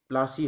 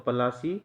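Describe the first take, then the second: First: It starts with a pl consonant cluster. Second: It has a full vowel after the p. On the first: The English distorted the name this way. "प्लासी हो गया" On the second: This is the original local name.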